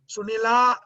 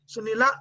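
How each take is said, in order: First: The name ends with a long final vowel. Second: The name ends with a short final vowel. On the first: "Sunila is going to be two matras" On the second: "Sunila is one matra"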